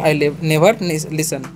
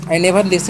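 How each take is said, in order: First: Very slow, broken into pieces; slow syllable by syllable. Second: Said in the usual way. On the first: Shown as a demonstration. Teacher modelling the right way for students, very slow and broken into pieces. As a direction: spell out each sound slowly as a model. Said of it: "तो ऐसे बोलना है". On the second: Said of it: "नहीं बोलना है".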